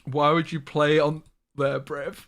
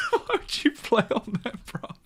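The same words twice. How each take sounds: First: Reading it out a bit louder and slower; reading chat message. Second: Laughing. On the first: Streamer reads a friend's teasing chat message, a mock-weighty read. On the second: Streamer cracking up while reading a friend's chat message, laughing. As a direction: read through laughter, pitched up. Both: Retold or imitated. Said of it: "Woody got me".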